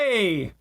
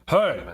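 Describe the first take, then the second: First: The voice is bright, ringing and forceful. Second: The voice is airy and breathy, not ringing. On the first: The speaker calls it right. "that's belting. It's very bright" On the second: The speaker calls it wrong. "What you're doing is hey, hey. That's not belting"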